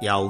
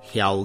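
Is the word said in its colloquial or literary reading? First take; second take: colloquial; literary. First: The word is said in its colloquial reading. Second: The word is said in its literary reading. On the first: "白读为" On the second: "文读为"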